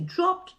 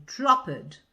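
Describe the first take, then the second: First: Dropped said in one syllable ending in t, dropt; dropped, one beat with final t; correct one syllable. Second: Dropped drawn out as two syllables, drop-id, slowly; dropped stretched to drop-id; wrong two syllables. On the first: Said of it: "they have to say dropped". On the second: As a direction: exaggerate learners' drop-id for dropped. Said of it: "they say dropped". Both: Shown as a demonstration.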